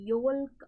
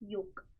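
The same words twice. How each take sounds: First: The L sound is pronounced in the word. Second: The L sound is silent in the word. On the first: The speaker calls it wrong. "yolk అనము" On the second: The speaker calls it right. "we don't pronounce l, so we call it as yolk"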